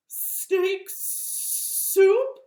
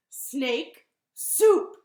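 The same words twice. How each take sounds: First: High, loud, drawn-out S sounds; horrified snake. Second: Loud, punched announcement; bunny's reveal. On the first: Snake learns he's on the menu, horrified sibilant cry. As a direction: echo it sibilantly in mock horror. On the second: Bunny names Gruffalo's favorite food to snake, loud and triumphant. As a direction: land each word separately and loudly. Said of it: "And Bunny said". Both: Acted.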